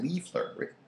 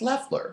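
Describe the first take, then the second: First: The first syllable has a long ee vowel. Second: The first syllable has a short e vowel. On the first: The speaker calls it wrong. "People pronounce my name wrong" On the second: The speaker calls it right. "It's Leffler"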